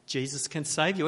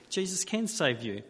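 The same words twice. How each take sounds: First: Said in the usual way. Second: "can" pressed firmly, the rest even; stress on can. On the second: Shown as a demonstration. Preacher insisting to the congregation, stress on "can". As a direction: lean hard on "can" as a truth. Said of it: "Again, these are all true".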